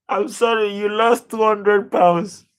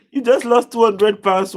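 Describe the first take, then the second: First: Stunned disbelief. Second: Laughing disbelief. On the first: Viewer lost a big bet. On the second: Laughing at viewer's big loss. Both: Real, not acted.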